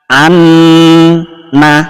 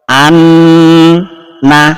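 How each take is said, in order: Both takes have the same delivery.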